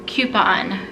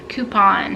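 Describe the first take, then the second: First: "Coupon" said as "kyoo-pon", with a y glide; one way: "Coupon" like "kyoo-pon". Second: "Coupon" said as "koo-pon", plain oo; the other way: "Coupon" like "koo-pon"; "Coupon" without the y. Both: Shown as a demonstration. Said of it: "How do you say that?".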